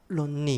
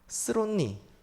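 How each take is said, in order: First: The opening sound is left out entirely. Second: The opening sound is said fully and clearly. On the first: "앞에 안 하시려고 론니" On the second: "스론니 이런 거 하지 마시고요"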